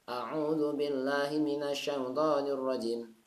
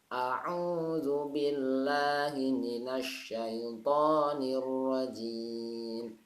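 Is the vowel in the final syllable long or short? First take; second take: short; long. First: The vowel of the last syllable is cut short. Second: The vowel of the last syllable is held long. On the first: The speaker calls it wrong. "Salah ya, dipanjangkan" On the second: The speaker calls it right. "Jimnya panjang"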